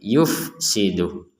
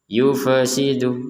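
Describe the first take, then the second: First: No vowel is heard after the f. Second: An extra vowel is heard after the f. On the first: The speaker calls it right. "Yang ada fa-nya mati, jangan jangan dihidupkan lagi" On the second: The speaker calls it wrong. "dibaca ada terkesan huruf e"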